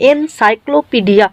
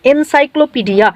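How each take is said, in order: First: এনসাইক্লোপিডিয়া broken into three parts, এন, সাইক্লো, পিডিয়া; split into sound chunks. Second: Said in the usual way. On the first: Shown as a demonstration. Teacher showing students syllables, এনসাইক্লোপিডিয়া said in three separated chunks. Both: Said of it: "তিন ধরনের sound আসছে".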